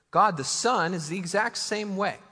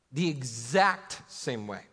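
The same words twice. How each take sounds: First: Firm, stressed statement with a strong push on God; emphatic declaration. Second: Slower and lower, each word weighed; slow emphatic repeat. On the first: Preacher insisting to his congregation, firmly stressed. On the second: Preacher repeating his point to the congregation, slow and deliberate. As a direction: repeat it slowly to drive it home. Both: Real, not acted.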